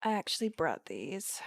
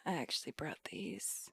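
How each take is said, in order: First: Said in the usual way. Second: Breathy whispered socialite take on the line; whispered [name] try. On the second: Shown as a demonstration. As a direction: hush it like a bored heiress. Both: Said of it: "I feel like I'm not hitting it".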